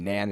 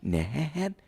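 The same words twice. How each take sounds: First: The pitch does not rise on the word. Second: The pitch rises on the word. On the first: It means something different. The speaker calls it wrong. "if you say Nan, it's it means something different" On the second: It is her actual name. The speaker calls it right. "have to go nan. Her name, you got to raise it"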